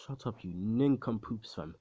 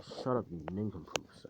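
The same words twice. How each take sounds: First: Slow, drawn-out "Shut up, you nincompoops"; slow put-down. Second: Said in the usual way. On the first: Retold or imitated. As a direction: drag out the insult with slow contempt. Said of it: "he says this, and then he says this". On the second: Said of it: "and he's just like".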